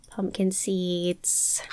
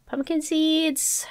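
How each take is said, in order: First: Said in the usual way. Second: "Pumpkin seeds" drawn out slowly and higher, falling on "seeds"; sing-song higher. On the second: Real, not acted. To herself while sorting inventory, "Pumpkin seeds" high and slow.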